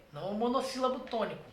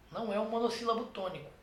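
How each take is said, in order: Both takes have the same delivery.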